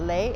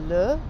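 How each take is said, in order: First: The vowel sounds like a Spanish 'le'. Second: The vowel sounds like a French 'le'. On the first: The speaker calls it wrong. "a lot of us Spanish speaking people want to say le and it's not le" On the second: The speaker calls it right. "it's le"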